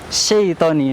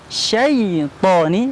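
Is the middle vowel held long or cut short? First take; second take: short; long. First: The vowel is rushed and cut short. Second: The long vowel is held for its full length. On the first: The speaker calls it wrong. "karena dibaca terlalu cepat" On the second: The speaker calls it right. "harusnya bunyinya syaitoni"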